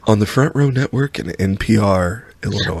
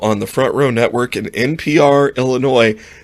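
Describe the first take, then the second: First: It is said in a close, smooth NPR-announcer voice. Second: It is said in his normal speaking voice.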